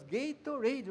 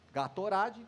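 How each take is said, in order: First: Gatorade said the American way, GAY-tor-ade; English pronunciation. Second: Gatorade read as written in Portuguese, ga-to-RA-dji; Brazilian pronunciation. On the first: Explaining the hard brand name to the class, says it the American way. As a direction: say Gatorade as Americans do, ending without an added vowel. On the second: Showing the class how Brazilians read the name, Portuguese-style. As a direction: sound out Gatorade letter by letter the Brazilian way, ending in dji. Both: Shown as a demonstration. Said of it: "ainda com uma pronúncia difícil".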